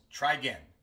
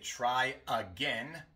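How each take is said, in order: First: The unstressed vowel of again is dropped entirely. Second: The unstressed vowel of again is fully pronounced. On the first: "decimos try again" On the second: "En lugar de try again"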